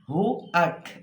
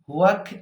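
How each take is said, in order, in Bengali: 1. দুটি syllable glide ছাড়া আলাদা রাখা হয়। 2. দুটি সিলেবল একটি y-গ্লাইড দিয়ে যুক্ত হয়। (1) "এই জায়গাটা একটু খেয়াল করব" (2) "এভাবে হবে না"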